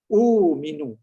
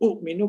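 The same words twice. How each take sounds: First: A long smooth vowel flows into the m. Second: A glottal catch comes before the m sound. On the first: The speaker calls it right. "Waw mati jadi u minu" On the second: The speaker calls it wrong. "Kalau nak baca u minu kan susah"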